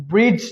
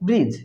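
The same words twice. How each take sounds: First: ব্রিজ with a D before the j, brid-j; wrong pronunciation. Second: ব্রিজ with the D silent; correct pronunciation. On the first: Teacher recaps what not to say, D voiced in ব্রিজ. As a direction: sound a hard D inside ব্রিজ. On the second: Teacher recaps the right form, no D in ব্রিজ. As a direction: say ব্রিজ with a plain j ending. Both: Shown as a demonstration. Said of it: "ব্রিজ নয়".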